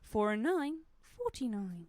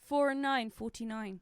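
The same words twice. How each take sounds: First: It is said in a put-on bingo caller voice. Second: It is said in an ordinary speaking voice.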